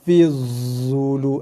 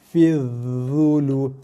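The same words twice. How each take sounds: First: The consonant after fi is a plain z sound. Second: The consonant after fi is a voiced th-like sound. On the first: The speaker calls it wrong. "itu bacaan yang salah bagi huruf dha" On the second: The speaker calls it right. "makhraj yang betul ialah"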